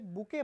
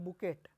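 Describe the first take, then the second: First: The word ends without any t sound. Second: The word ends with an audible t sound. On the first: The speaker calls it right. "इसे बुके पढ़ेंगे। टी is silent" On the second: The speaker calls it wrong. "वो कहते हैं बुकेट, जो कि completely wrong है"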